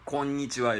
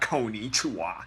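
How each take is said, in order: First: The word flows smoothly with soft consonants. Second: The word has hard, heavily stressed consonants. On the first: The speaker calls it right. "Konnichiwa is how you do it" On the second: The speaker calls it wrong. "It's not konnichiwa"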